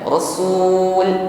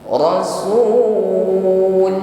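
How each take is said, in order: First: The final l is cut off abruptly. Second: The final l keeps flowing briefly. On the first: The speaker calls it wrong. "Jangan rasul sul ya, tutup hurufnya" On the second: The speaker calls it right. "alirkan sebagian bunyi huruf lam... nah seperti itu"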